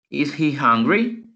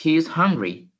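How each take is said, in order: First: "Is he hungry?" slow, rising on "hungry"; slow rising question tune on "Is he hungry?"; question intonation. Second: "He is hungry." with a falling tune at the end; falling statement tune on "He is hungry."; statement intonation. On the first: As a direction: ask "Is he hungry?" slowly, pitch climbing at the end. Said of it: "Lleva como esa entonación de pregunta". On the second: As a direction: say "He is hungry." as a flat, settled statement ending down. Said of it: "escuchemos la oración afirmativa". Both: Shown as a demonstration.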